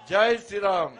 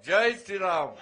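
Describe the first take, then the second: First: Everyone shouting the slogan together; full crowd shout. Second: Group chant. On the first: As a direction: roar it all together. (అందరూ కలిసి గట్టిగా అరిచే నినాదం) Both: Real, not acted. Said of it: "అందరం కలిసి అందాం".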